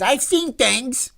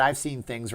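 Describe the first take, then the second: First: Slow, high, loud mock outburst; hammed-up high-pitched cry, drawn out; Fredo impression. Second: Said in the usual way. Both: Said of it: "Fredo said".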